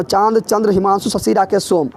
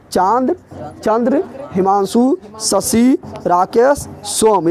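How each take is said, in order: First: Said in the usual way. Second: Chand, Chandra, Himanshu spaced out with rising list tune; word-by-word dictation. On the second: Shown as a demonstration. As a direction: dictate Chand through सोम one word at a time, pausing between. Teacher repeats list word by word.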